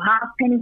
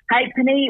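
First: "Halfpenny" said as HAFF-penny; "Halfpenny" with the F sounded; alternative pronunciation. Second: "Halfpenny" said as HAYP-penny; "Halfpenny" with long A and silent L and F; alternative pronunciation. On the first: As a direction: say "Halfpenny" as it is spelt, half plus penny. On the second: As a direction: say "Halfpenny" like HAPE-nee, with a long A. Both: Shown as a demonstration. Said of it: "however they would like to pronounce it".

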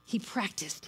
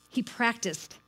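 First: Hushed whisper of the same words; whispered repetition. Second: Said in the usual way. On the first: Shown as a demonstration. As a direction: drop to a breathy whisper for "He practiced". Repeated, second take whispered. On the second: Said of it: "repeated three ways".

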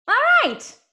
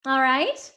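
First: Squeaky all right. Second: Said in the usual way. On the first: Acted. Repeated all right takes.

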